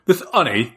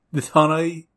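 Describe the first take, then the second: First: "honey" with the H dropped; British honey. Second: "honey" with the H still sounded; failed British honey. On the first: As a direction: say "honey" as 'unny, British style. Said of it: "there we go". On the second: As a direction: attempt a British "honey", keeping the H. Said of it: "I cannot say honey with a". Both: Shown as a demonstration.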